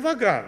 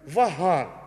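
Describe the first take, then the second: First: The name is pronounced the Russian way. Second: The name is pronounced the Armenian way. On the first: The speaker calls it wrong. "меня зовут не Ваган" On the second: The speaker calls it right. "меня зовут Ваган. Ну, по-армянски"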